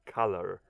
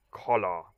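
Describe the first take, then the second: First: Said in the usual way. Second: COLLAR with an open, rounded first vowel; mispronounced reading. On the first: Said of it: "not color". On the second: Shown as a demonstration. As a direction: say COLLAR as the spelling COLOR looks. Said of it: "when I read C O L O R, it's, in my mind, it's collar".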